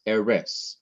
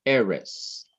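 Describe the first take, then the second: First: Eres with the stress wrongly on the last syllable, RES; wrong final stress. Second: Eres with the stress on E, falling away on res; stress on first syllable. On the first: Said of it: "emphasize the last syllable". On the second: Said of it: "Emphasize the syllable before the last syllable". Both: Shown as a demonstration.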